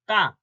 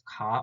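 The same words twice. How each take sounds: First: The first consonant is tense and strongly stressed. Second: The first consonant is plain and unstressed. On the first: The speaker calls it right. "we have to stress the fir- first syllable ka" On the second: The speaker calls it wrong. "not just ka"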